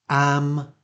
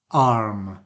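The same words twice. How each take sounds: First: AM with a short open front a; short front vowel. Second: ARM with a long back ah; long back vowel. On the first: Teacher repeating the minimal pair, short front vowel. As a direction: say AM with the a of cat. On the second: Teacher repeating the minimal pair, long back vowel. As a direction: say ARM with an open ah. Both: Shown as a demonstration. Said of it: "some more minimal pairs to look at".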